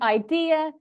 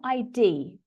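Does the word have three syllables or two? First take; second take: three; two. First: It has three syllables, stressed on the second. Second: It has two syllables, sounding like "ID". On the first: The speaker calls it right. "three syllables, with the stress on the second syllable" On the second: The speaker calls it wrong. "not I D, which sometimes I hear"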